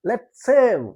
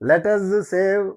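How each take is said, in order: First: The two s sounds are joined into one. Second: It is said longer, as separate 'let us'. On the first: The speaker calls it right. "రెండు ఎస్లు కలిపేసి మాట్లాడండి" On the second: The speaker calls it wrong. "అలా అంటే కొద్దిగా పొడుగ్గా ఉంటుంది"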